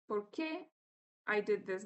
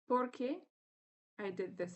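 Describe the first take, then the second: First: The stress falls on the second syllable. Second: The stress falls on the first syllable. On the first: The speaker calls it wrong. "Don't say" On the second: The speaker calls it right.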